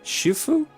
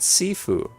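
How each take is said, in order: First: The word begins with a sh sound. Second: The word begins with an s sound. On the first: This is how it is said in the game. "how do you pronounce that? Shufu?" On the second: This is how the speaker has always said it. "I've been pronouncing it Sifu all this time"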